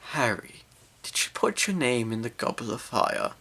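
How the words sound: The question is asked in a calm voice.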